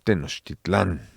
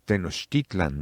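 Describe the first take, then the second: First: The stress is on the last syllable. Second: The stress is on the second-to-last syllable. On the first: The speaker calls it wrong. "No Tenochtitlán" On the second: The speaker calls it right. "pues es Tenochtitlan"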